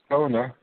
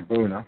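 First: The name is given an English pronunciation. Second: The name is given a German pronunciation. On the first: "I have problems pronouncing it in the English way" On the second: "In German, I would say Boehner"

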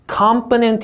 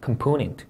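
First: The stress is not on the second syllable. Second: The stress is on the second syllable. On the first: The speaker calls it wrong. "이렇게 읽으면 영어처럼 들립니다만 없는 단어예요" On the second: The speaker calls it right. "다시 이음절 강세 넣어서"

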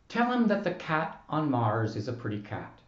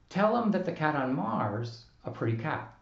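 First: The vowel of 'is' is fully pronounced. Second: The vowel of 'is' is dropped entirely. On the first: "the way I just pronounced it" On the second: "we can't say"

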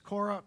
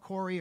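First: The name ends with an 'ah' vowel. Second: The name ends with a long 'ee' vowel.

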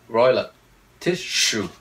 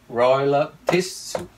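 First: Tissue has an extra s sound before sh. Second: Tissue has no extra s sound before sh. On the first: The speaker calls it wrong. "đọc sai sẽ là royal of tissue. It's wrong" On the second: The speaker calls it right.

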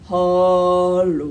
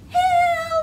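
First: It is said in a low, deep voice. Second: It is said in a high, squeaky voice.

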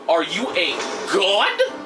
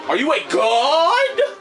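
First: The question is said flatly, without strong emphasis. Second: The question is said with strong, forceful emphasis. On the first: The speaker calls it wrong. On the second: The speaker calls it right.

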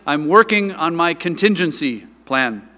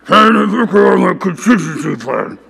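First: It is said in a normal, healthy voice. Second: It is said in a weak, sick voice.

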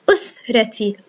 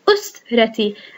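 First: The word begins with a glottal stop and short u. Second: The same.

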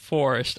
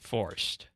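First: The word is said with two full syllables. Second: The word is shortened to one syllable. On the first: "as it's supposed to be said" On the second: "shorten it up and say forced"

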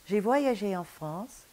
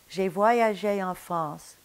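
The two takes are said the same way.

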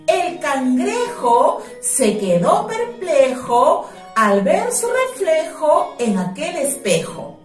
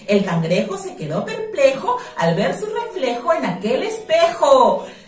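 First: It is said at a normal pace. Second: It is said fast.

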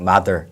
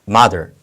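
First: The word is said plainly, without strong stress. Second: The first syllable is strongly stressed. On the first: The speaker calls it wrong. "그냥 mother 하지 마시고" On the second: The speaker calls it right. "앞쪽에 강세가 오죠? ... 이렇게 소리해 주시면 됩니다"

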